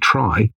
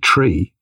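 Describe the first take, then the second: First: The word rhymes with 'sky'. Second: The word rhymes with 'see'. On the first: This is the other person's pronunciation. "So you say try" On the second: This is the speaker's own preferred pronunciation. "and I say tree"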